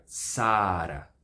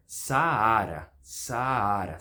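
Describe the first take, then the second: First: Saara with one long first a; slow SAA-ra; single long vowel. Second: Saara as sa-A-ra; slow Sa-A-ra, second a stressed; two separate vowels. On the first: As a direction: hold one stressed "Saa", then "ra". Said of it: "Se fosse uma vogal longa". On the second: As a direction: split the a's of Saara into two syllables. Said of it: "São dois As diferentes". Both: Shown as a demonstration.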